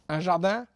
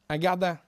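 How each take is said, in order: First: The word begins with a soft J sound. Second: The word begins with a hard G sound.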